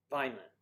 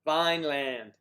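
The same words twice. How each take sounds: First: Said in the usual way. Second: Vineland loud and drawn out, as VINE-LAND; "Vineland" spelled out by ear, full LAND at the end; phonetic pronunciation. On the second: Shown as a demonstration. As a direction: sound out "Vineland" with both syllables full. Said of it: "Phonetic is good for me".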